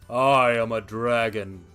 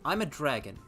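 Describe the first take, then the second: First: It is said imitating the dragon's voice. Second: It is said in the speaker's normal voice.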